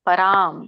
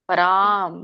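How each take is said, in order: No difference in how they are said.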